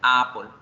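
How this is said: The 'a' runs straight into 'apple'. The article is lost and not understood. "Si yo no hago esa separación, yo diría"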